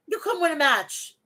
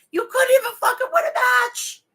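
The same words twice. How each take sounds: First: Said in the usual way. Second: Much higher and louder, the voice cracking into a cry-shout on "win"; furious crying shout. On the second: Real, not acted. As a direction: scream it out, near tears with rage. Furious rant at wrestler.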